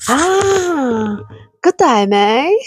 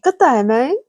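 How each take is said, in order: First: A light Australian accent on good day, mate; a cheery, lightly done Australian good day; Aussie greeting. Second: A light Australian good day, mate; a cheery, lightly done Australian good day, mate; Aussie greeting. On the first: Streamer teaching viewers an Aussie greeting in a light Australian accent. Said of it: "I can teach you Aussie". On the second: Streamer greeting viewer Shadow Mark in a light Australian accent. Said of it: "Shadow Mark three". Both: Shown as a demonstration.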